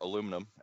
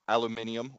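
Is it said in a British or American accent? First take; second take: American; British. First: It is said the American way, aluminum. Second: It is said the British way, aluminium.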